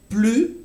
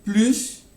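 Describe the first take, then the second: First: Plus said as "ply", final s silent; clipped "plus", no s at the end; plus without s. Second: Plus said as "plyss", final s sounded; "plus" ending on a clear hiss of s. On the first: Teacher showing students the first way: "plus" with silent s. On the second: Teacher showing students the second way: "plus" with the s sounded. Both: Shown as a demonstration. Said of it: "on peut entendre".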